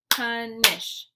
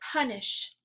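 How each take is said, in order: First: "Punish" loudly split into two beats; syllable by syllable. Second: Said in the usual way. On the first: Shown as a demonstration. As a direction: clap out "Punish" one syllable at a time. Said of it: "clap the syllables out". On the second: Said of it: "I'll say the word".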